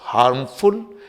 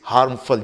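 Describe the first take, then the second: First: The ending has a full, clear 'ful' vowel. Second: The ending is reduced to a weak 'fl' sound. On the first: The speaker calls it wrong. "It's not हार्मफुल" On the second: The speaker calls it right. "फुल नहीं बल्कि फ, वो भी आधा फ जैसा बोला जाता है"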